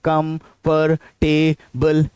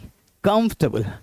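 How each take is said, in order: First: The word is said with four syllables. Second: The word is said with three syllables. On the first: The speaker calls it wrong. "कंफर्टेबल नहीं" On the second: The speaker calls it right. "कंफर्टेबल तीन syllables है, ना कि चार"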